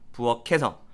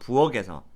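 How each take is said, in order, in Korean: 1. 연음되는 자음은 거센소리 그대로 남습니다. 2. 연음되는 자음은 예사소리로 바뀝니다. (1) "다시" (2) "틀린 발음이에요"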